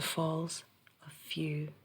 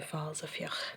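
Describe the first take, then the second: First: The last word ends in a plain vowel. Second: The last word ends in a harsh throaty sound. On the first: "It's the Falls of Few" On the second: "you sound like you're absolutely disgusted"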